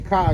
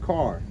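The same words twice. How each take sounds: First: The final R sound is dropped. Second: The final R sound is pronounced. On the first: This is how the local community talks. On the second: This is how others expect it to be said.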